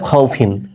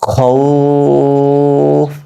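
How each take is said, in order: First: The word ends with a pronounced -in ending. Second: The word ends on a bare consonant, ending dropped. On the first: The reading continues without a stop. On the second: The reading stops at this word.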